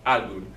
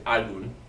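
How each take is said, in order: First: The stress is on the first syllable. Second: The stress is on the first syllable.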